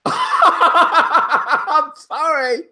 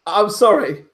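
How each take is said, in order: First: Very slow, higher, laughing through it; real laughter breaking up the words; laughing apology. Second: Said in the usual way. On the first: Real, not acted. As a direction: say sorry while cracking up.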